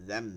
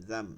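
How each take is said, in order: No difference in how they are said.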